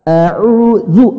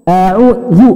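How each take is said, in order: The two takes are said the same way.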